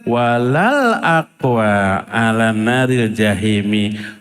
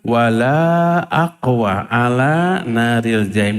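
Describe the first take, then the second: First: The vowel after the first 'l' is short. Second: The vowel after the first 'l' is long. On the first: The speaker is surely strong enough to bear hellfire. The speaker calls it wrong. "Ini dibacanya sering dengar" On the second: The speaker is not strong enough to bear hellfire. The speaker calls it right. "Harusnya laknya itu panjang, lak nafi"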